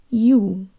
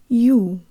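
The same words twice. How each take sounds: First: The Y sound at the start is weak. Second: The same.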